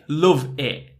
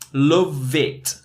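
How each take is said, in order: First: The words run together, ending in a sharp stop. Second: The two words run together with a clear T. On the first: "then it stops really sharply" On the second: "we really group the, the phrase together"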